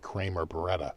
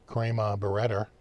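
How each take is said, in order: First: It is said in a general accent. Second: It is said in a Boston accent. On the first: The speaker calls it wrong. "You don't say" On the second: The speaker calls it right. "That's how you pronounce it in Boston"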